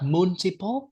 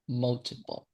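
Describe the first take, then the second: First: The first syllable has a 'mun' or 'moon' vowel. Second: The first syllable sounds like 'mul'. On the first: The speaker calls it wrong. "It's not multiple" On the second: The speaker calls it right. "like mul, multiple"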